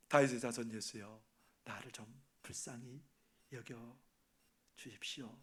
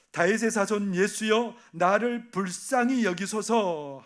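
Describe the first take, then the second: First: Hushed, much softer plea; quiet pleading. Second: Slow, drawn-out plea, stress on 불쌍히; calling out for mercy. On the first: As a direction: murmur the plea lower, like a secret prayer. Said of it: "뭐라고 말합니까?". (낮고 작게 속삭이듯 간구) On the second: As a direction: cry each word out slowly to Jesus. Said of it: "소리질러 이르되". (느리게 외치는 간구) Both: Retold or imitated.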